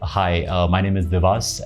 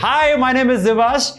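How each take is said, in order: First: It is said softly in a casual conversational way. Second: It is said loudly with projected, energetic delivery. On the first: It is meant for one person face to face. "if I meet one-on-one" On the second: It is meant for a large audience. "if I'm on a stage, if I'm addressing a gathering"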